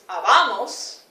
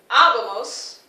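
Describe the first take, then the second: First: The stress is not on the first syllable. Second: The stress is on the first syllable. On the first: The speaker calls it wrong. "no es habamos" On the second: The speaker calls it right. "con énfasis sobre la A"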